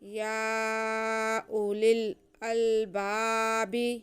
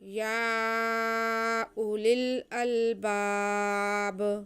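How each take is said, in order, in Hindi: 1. आख़िरी शब्द एक छोटे जोड़े गए 'i' स्वर पर ख़त्म होता है। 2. लंबे 'a' को खींचा जाता है और शब्द वहीं रुक जाता है।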